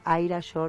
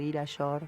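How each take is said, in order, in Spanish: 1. El primer nombre empieza con sonido 'eye'. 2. El primer nombre empieza con sonido 'ee'. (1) "no sé si se pronuncia Aira Yor" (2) "o Ira Yor"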